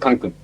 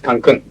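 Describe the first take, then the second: First: The stress is on the first syllable. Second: The stress is on the second syllable. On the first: The speaker calls it wrong. "It's not Cancun" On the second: The speaker calls it right. "with accent here. There is an accent mark"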